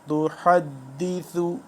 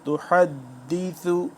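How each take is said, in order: The two takes are said the same way.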